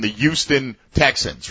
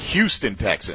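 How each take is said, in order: First: The name starts with a Y sound. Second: The name starts with an H sound. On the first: The speaker calls it wrong. "I just dropped the H off of it" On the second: The speaker calls it right. "With the H"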